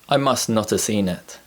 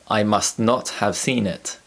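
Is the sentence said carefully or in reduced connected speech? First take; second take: reduced; carefully. First: The words run together with reduced forms. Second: Each word is said carefully and fully.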